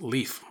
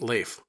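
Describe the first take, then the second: First: The name sounds exactly like the word leaf. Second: The name does not sound like the word leaf. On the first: This is the usual American pronunciation. "In America, it would usually be pronounced leaf, like the leaf on a tree" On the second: This is the pronunciation used in most other places. "But in most other places, it is pronounced Leif"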